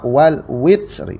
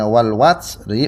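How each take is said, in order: First: The vowel after the w is 'i'. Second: The vowel after the w is 'a'. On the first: "wawunya di kasrah" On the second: "wawunya di fathah"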